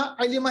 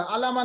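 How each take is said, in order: First: अलिमा said with a short i in the middle, a-li-ma; teacher models अलिमा as a-li-ma, the correct form; correct reading. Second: अलामा with a long aa in the middle, a-laa-ma; teacher shows the mistake: अलामा, a-laa-ma; wrong reading. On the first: Teacher modelling the right reading for students, अलिमा as a-li-ma. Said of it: "अलिमा ही पढ़ा". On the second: Teacher warning students against a misreading, अलामा as a-laa-ma. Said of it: "अलामा नहीं पढ़ा जाएगा". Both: Shown as a demonstration.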